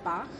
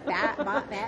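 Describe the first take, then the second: First: It sounds like bahk, with a long ah vowel. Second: It sounds like batch, rhyming with match. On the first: The name of the composer. The speaker calls it wrong. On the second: A New Zealand beach house. The speaker calls it right. "is batch"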